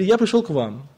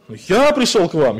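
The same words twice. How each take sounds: First: The main stress falls on another word. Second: The word я carries the main stress. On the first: "Или" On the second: "Я, вы что?"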